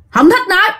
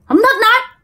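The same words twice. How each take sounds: First: A much higher, clipped refusal in an eerie put-on voice; possessed man's curt refusal. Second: Very high, strange put-on voice, short and cold; possessed man's curt refusal. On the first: Possessed man refuses the medium, high and curt. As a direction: snap it out like a stranger inside him. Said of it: "ổng nói". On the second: Possessed man repeats his refusal, very high and eerie. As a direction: refuse coldly, as the spirit would. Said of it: "Ổng nói vậy thôi đó các bạn".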